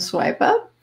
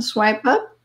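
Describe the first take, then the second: First: Breathy whispered "swipe up", airy and high; whispered cue. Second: Said in the usual way. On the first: Shown as a demonstration. Guiding the movement, a whispered "swipe up". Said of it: "right hand, swipe up". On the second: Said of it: "Left hand, swipe up".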